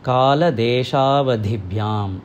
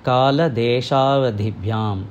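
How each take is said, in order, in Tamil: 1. சந்திப்பில் வார்த்தைகள் சேர்ந்தே இருக்கும். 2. சந்திப்பில் வார்த்தைகள் சேர்ந்தே இருக்கும்.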